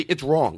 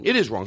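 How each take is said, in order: First: Said in the usual way. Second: "It is wrong" with IS leaned on and falling; stress on IS. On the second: Shown as a demonstration. Insisting to his co-host, stress on "is". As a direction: hit the word "is" hard, falling tune.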